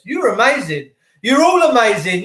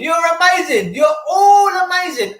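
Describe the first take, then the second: First: Said in the usual way. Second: Much higher, tearful cry of praise; overcome, near tears as he calls it out; emotional. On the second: Real, not acted. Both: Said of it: "I'm so emotional right now".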